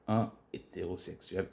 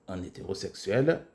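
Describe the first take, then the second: First: The n is not linked to the next vowel. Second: The n is linked to the next vowel. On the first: The speaker calls it wrong. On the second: The speaker calls it right.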